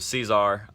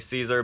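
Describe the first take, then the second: First: The name is said in a French-style way. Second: The name is said in a plain English way. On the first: This follows the accent mark on the brand name. "I assume would be the correct way to say it" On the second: This is how the speaker usually says it. "I personally say Caesar"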